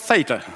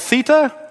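First: It is said with an American pronunciation. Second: It is said with a British pronunciation.

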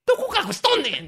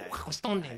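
First: It is said in a loud voice. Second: It is said quietly, almost muttered.

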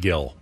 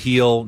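First: The name begins with a hard G sound. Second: The name begins with a soft, breathy sound. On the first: The speaker calls it wrong. "not Gill" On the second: The speaker calls it right. "It's a soft in Spanish. That's how you pronounce it"

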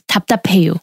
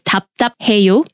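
First: The word is said fast, syllables run together. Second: The word is said slowly, each syllable clear. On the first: "When you string it together and you say it really fast" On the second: "just remember it's 답답해요"

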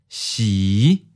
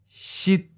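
First: The pitch starts low and rises. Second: The pitch is high and cut short. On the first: "Low rising. Fifth tone" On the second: "High stop. Eighth tone"

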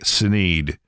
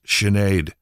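First: The name is said in an anglicized way. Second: The name is said in its native way. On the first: This is how the radio host insisted on saying it. The speaker calls it wrong. "He would always say [name]" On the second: This is how she says her own name. The speaker calls it right. "It's pronounced Sinead"

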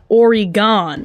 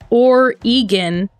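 First: The last syllable sounds like 'gone'. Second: The last syllable sounds like 'gun'. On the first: This is how outsiders say it. The speaker calls it wrong. "not Oregon. It literally says G-A-W-N" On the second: This is how native Oregonians say it. The speaker calls it right. "Just remember that it's Oregon"

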